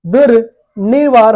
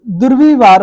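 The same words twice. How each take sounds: First: दुर्निवार drawn out with 'ni' in the middle; correct pronunciation. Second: दुर्विवार with 'vi' in the middle; wrong pronunciation. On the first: Teacher giving the right word, slow with clear 'ni'. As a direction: slowly put an n after दुर् in दुर्निवार. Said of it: "सही शब्द है". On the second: Teacher testing a faulty word, 'vi' in the middle. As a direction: put a v after दुर् in दुर्विवार. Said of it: "नहीं, ये गलत है". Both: Shown as a demonstration.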